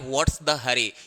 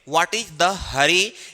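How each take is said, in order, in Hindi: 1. 'Is' को s की आवाज़ में छोटा किया जाता है। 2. 'is' को पूरा बोला जाता है। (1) "इज का ही कॉन्ट्रैक्शन फॉर्म है" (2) "आप बोल सकते हैं व्हाट इज द हरी"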